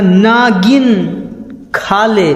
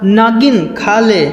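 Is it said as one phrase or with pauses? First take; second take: with pauses; one phrase. First: It is said with pauses between words. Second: It is said as one unbroken phrase.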